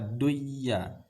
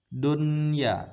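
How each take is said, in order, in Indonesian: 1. Bunyi n melebur menjadi bunyi y ganda. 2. Bunyi n dibaca jelas sebelum y. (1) "tidak boleh baca duyya" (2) "Kita harus membacanya secara izhar atau jelas"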